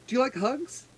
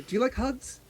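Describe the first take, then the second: First: Put-on childlike question. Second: Put-on high, soft little-girl ask; childlike question. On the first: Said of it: "She goes". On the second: Little sea elf asking Acacia for a hug, high and soft. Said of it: "So she'll start with Acacia". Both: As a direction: ask sweetly like a small child.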